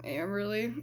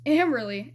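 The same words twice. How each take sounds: First: Softer, barely said; quiet, bashful name; shy mumble. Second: Name said clearly and louder; louder, clearer retake. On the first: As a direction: say your name too shy to be heard. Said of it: "Sweetie, I can't hear you". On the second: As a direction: repeat your name so he hears it. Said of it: "Sweetie, I didn't hear you". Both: Retold or imitated.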